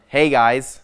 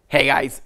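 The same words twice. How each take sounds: First: The greeting sounds calm and normal. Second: The greeting sounds aggressive and forceful.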